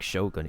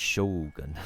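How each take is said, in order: First: The first vowel is short. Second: The first vowel is held long. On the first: The speaker calls it wrong. "it's not even like Shogun" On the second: The speaker calls it right. "They have like an extra U that they omit"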